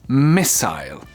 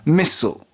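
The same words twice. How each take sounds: First: It is said with a British pronunciation. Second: It is said with an American pronunciation. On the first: "in British English, we say it a missile" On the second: "In American English, though, mm, it's more something like missile"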